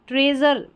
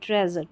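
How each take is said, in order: First: The first vowel sounds like 'ee' in see. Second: The first vowel sounds like 'e' in bed. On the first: The speaker calls it wrong. "ट्रेजर नहीं बोलेंगे" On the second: The speaker calls it right. "ट्रेजर ये इसका उच्चारण है"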